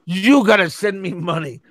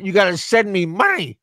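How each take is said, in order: First: "you" as the stressed word, correcting who pays. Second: Said in the usual way. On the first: Retold or imitated. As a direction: lean on "you" to put the payment on the listener.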